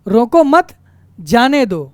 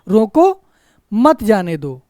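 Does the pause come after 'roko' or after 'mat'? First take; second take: after mat; after roko. First: There is a pause right after the second word. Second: There is a pause right after the first word. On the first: Do not stop him; let him go. "रोको मत, फिर कहते हैं रोको मत जाने दो" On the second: Stop him; do not let him go. "रोको फिर ठहराव है थोड़ा सा"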